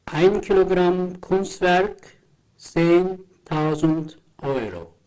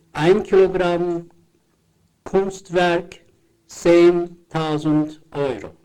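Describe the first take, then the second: No difference in how they are said.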